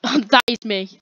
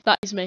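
First: Laughing. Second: Said in the usual way. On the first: Real, not acted. Laughing at her own character.

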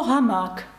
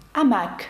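First: Said in the usual way. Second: "амак" starting on the vowel, no H; French silent H. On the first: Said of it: "але не вимовляється". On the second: Shown as a demonstration. Teacher showing the French word, H left silent. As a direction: drop the H, open "амак" on A. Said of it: "французькою".

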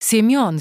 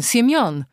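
First: Loud pained call of Siemion; wounded robber calling out; calling after him. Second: Louder, higher repeated call of Siemion; desperate second call; calling after him. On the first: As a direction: cry Siemion after the fleeing man. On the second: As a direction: shout Siemion again in pain. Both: Acted. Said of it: "wołał za nim".

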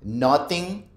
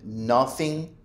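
First: "Nothing" with a hard T in the middle, rising. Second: Slow "nothing" said as "noffing". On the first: Teacher giving wrong examples on purpose, "Nothing" with T for TH. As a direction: say "Nothing" as "noting". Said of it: "lo voy a decir mal a propósito". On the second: Teacher imitating what learners sometimes say, "nothing" with F for TH. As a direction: put an F in the middle of "nothing". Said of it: "o a veces dicen". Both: Shown as a demonstration.

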